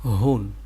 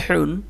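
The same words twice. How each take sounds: First: হুন, lower, with a loose open h; open throat h. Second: হুন, higher, with a constricted breathy h; squeezed throat h. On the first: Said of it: "এটা গলা ছেড়ে দিয়ে". (গলা ছেড়ে হুন) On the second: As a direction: push air through a tight throat on হুন. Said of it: "এটা গলা চেপে বের হবে". (গলা চেপে হুন) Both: Shown as a demonstration.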